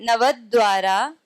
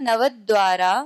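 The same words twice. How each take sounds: Both takes have the same delivery.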